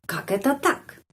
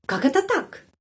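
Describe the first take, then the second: First: Said in the usual way. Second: High, indignant Как это так; emotional. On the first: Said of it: "Tidak pelan ya". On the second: Shown as a demonstration. Teacher shows the phrase said with emotion to students. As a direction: fling it out in disbelief. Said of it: "dengan emosi".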